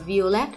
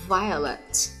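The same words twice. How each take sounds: First: The stress is not on the first syllable. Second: The stress is on the first syllable. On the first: The speaker calls it wrong. "chúng ta sẽ không đọc là violet" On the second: The speaker calls it right. "mà là violet"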